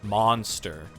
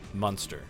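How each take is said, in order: First: The first vowel is an open 'ah' sound. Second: The first vowel is a short 'uh' sound. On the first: This is how most people say it. "instead of like like Monster" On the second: This is the speaker's own unusual way of saying it. "I use like more of a, a U sound"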